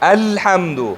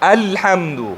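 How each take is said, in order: The two takes are said the same way.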